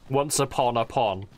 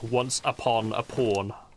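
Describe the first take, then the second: First: It is said in an American accent. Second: It is said in a British accent. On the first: The pun on 'once upon a time' works. "that sort of American accent" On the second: The pun on 'once upon a time' does not work. "if you say it in a British accent"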